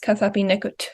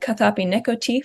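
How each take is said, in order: First: The final vowel is faint or dropped. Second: The final vowel is fully pronounced.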